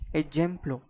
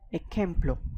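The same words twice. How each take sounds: First: The j sounds like an English j. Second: The j sounds like a throaty h. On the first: The speaker calls it wrong. "this is not ejemplo" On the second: The speaker calls it right. "this is ejemplo, because J in Spanish is pronounced as jota"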